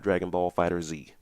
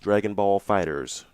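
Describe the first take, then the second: First: The last word ends with a separate letter Z. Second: The last word sounds like plain 'Fighters'. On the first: The speaker calls it wrong. "not Dragon Ball Fighter Z" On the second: The speaker calls it right. "apparently pronounced Dragon Ball Fighters"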